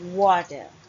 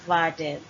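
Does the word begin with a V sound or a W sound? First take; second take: W sound; V sound. First: The word begins with a W sound. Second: The word begins with a V sound. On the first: The speaker calls it right. "it's wa sound because it starts with W" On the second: The speaker calls it wrong. "it's not water"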